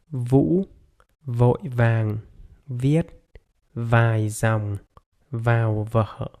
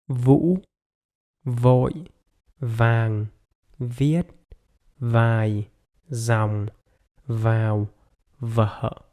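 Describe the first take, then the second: First: The sentence is spoken somewhat slowly. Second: The sentence is spoken very slowly.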